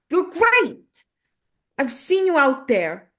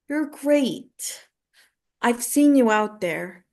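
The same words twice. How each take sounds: First: It is said like a tough, pushing coach. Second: It is said in a gentle, encouraging tone.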